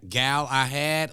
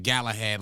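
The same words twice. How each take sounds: First: Gal I Had, said slowly as three separate words, Gal, I, Had; split into three words. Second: Galahad run together as one word, GAL-a-had. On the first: Unsure host tries the song title Gal I Had word by word. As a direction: spell out Gal I Had word by word, each part apart. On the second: Host tries the title Galahad as one word. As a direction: say Galahad as a single smooth word. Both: Shown as a demonstration. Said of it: "like, one word?".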